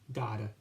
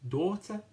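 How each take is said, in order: First: It is said in an American accent, D-like T. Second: It is said in a British accent, crisp T.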